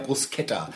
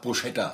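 First: The middle cluster is said as an 'sk' sound. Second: The middle cluster is said as a 'sh' sound. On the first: The speaker calls it right. "Die Buchstabenkombination im italienischen SCH ist ein Sk" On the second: The speaker calls it wrong. "SCH wird ja der oft auch falsch gemacht. Bruschetta, sagen die Leute"

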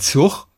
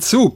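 First: It is said the northern German way. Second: It is said the strict standard way. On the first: The speaker calls it wrong. "Es heißt nicht Zug" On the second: The speaker calls it right. "sondern Zug"

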